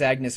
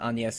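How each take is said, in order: First: The name is pronounced the English way. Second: The name is pronounced the French way.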